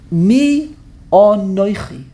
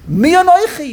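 First: It is said in a serious tone. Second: It is said as a mocking cliche.

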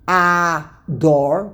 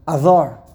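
First: The first vowel is full and the d hard. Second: The first vowel is swallowed and the d soft. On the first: This is the form used in the Torah verse. The speaker calls it wrong. "The correct way to pronounce it is not Ador, that's Chumash" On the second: This is the form used in the Megillah. The speaker calls it right. "The Aleph gets swallowed a little bit, and the Dalit has no dot"

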